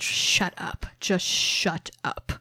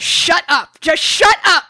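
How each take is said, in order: First: It is said less loudly, less stridently. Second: It is yelled loudly and stridently.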